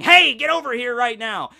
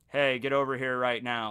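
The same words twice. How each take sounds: First: It is yelled loudly and urgently. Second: It is said flatly without any interest.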